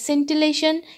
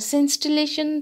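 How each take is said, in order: First: No extra s sound comes before the t. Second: An extra s sound comes before the t. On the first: The speaker calls it right. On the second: The speaker calls it wrong.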